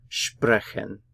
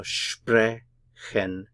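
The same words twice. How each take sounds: First: Said in the usual way. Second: "sprechen" very slowly, split, with SPRE stressed; "sprechen" as SPRE... chen; stress first syllable. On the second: Shown as a demonstration. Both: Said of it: "we stress the first syllable".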